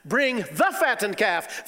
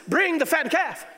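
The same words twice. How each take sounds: First: Slow, drawn-out proclamation of the father; a slow, stately call for the feast; father's command. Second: High, loud shout of joy; a high, ringing, joyful order; exultant call. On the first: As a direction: lay it out slowly like a grand order. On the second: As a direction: cry it out as a father whose son is home. Father's command said again. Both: Acted.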